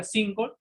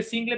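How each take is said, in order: First: "single" pronounced "SIN-gol"; pronunciación inglesa. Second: "single" leído a la española, "SIN-gle"; pronunciado como se escribe. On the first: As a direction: end "single" in "-gol", not "-gle". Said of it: "pero se pronuncia single". ("single" pronunciado "síngol") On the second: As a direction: di "single" letra por letra en español, acabado en "-gle". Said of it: "se escribe single". ("single" leído tal como se escribe, "síngle") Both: Shown as a demonstration.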